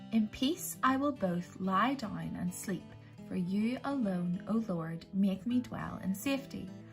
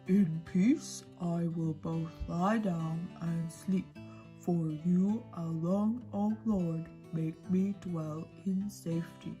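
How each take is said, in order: First: It is said in a normal voice. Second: It is said in a deep monster voice.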